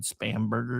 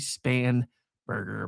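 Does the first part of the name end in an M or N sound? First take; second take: M; N. First: The first part ends with an m sound. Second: The first part ends with an n sound. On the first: The speaker calls it wrong. "I've always said" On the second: The speaker calls it right. "It's technically"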